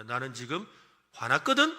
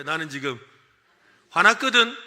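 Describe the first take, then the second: First: Playfully angry rising; mock-angry announcement. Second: Loud playful anger; loud mock angry. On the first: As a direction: snap it out like you're mad. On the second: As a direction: shout it like you mean it. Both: Shown as a demonstration. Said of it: "해볼까요?".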